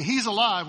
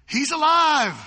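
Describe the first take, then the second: First: Said in the usual way. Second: Loud, excited, higher cry of joy; stoked shout. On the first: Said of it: "if my friend came and told me". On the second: Retold or imitated. Disciples finding Thomas, shouting in excitement. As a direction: blurt out the good news. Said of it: "they're stoked".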